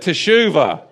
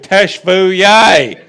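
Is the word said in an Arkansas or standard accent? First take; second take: standard; Arkansas. First: It is said with standard Hebrew pronunciation. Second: It is said in an Arkansas accent.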